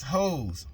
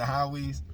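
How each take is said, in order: First: "Hoes" said like the plural of hoe; Hoes as one syllable. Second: "Howie's" said HOW-eez; Howie's in two syllables. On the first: Reading out the spelled brand name, "Hoes" as one syllable. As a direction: say "Hoes" with a long O, no middle syllable. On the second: Giving viewers the other pronunciation, "Howie's" as HOW-eez. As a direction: say "Howie's" with an ow, then an eez ending. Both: Shown as a demonstration. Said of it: "some pronounce it Howie's".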